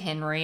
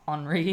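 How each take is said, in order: First: The name is pronounced the English way. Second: The name is pronounced the French way. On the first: "I'm just going to say Henry" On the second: "I'm sure it is Henri"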